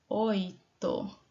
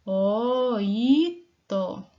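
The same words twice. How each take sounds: First: Said in the usual way. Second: Oito said louder, drawn out, falling; emphatic model word. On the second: Shown as a demonstration. Teacher modelling oito for pupils, louder and drawn out. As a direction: sound out Oito clearly for the class. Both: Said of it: "Como é que eu escrevo a palavrinha oito?".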